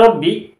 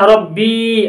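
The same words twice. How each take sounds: First: The final vowel is short. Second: The final vowel is long. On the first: "ini B-nya kasrah" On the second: "ada huruf ya, panjang"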